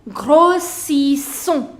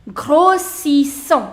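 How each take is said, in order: No difference in how they are said.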